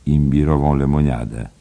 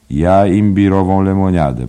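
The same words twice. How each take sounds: First: Polite. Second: A high, loud, odd-sounding order of ginger ale; Bantam Lyons ordering. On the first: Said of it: "dodał uprzejmie David Byrne". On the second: Bantam Lyons ordering at the bar, high and loud. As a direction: call out the drink cheerfully. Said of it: "powiedział Bantam Lyons". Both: Acted.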